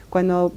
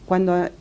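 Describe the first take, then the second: No difference in how they are said.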